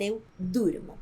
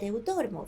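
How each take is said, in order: First: "eu durmo" with u, as the right form; "eu durmo" stated as correct. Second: "eu dormo" with o, as the form not to say; "eu dormo" as the mistake, quick; wrong form. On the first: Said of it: "vamos dizer". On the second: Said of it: "não vamos dizer". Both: Shown as a demonstration.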